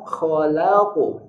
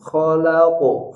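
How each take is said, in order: First: The l sound stays light and thin. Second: The l sound is made heavy and thick. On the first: The speaker calls it right. "lam tetap tipis" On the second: The speaker calls it wrong. "jangan agak tebal. Jangan"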